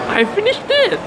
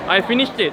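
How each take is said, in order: First: It is said in a marked, insistent tone. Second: It is said in a plain, neutral tone. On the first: The listener should already know it is finished. "you will say it in a different intonation" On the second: The speaker simply reports finishing. "Instead of I finished it"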